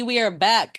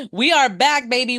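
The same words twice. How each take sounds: First: Said in the usual way. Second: Excited. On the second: Real, not acted. Hyped return to the show.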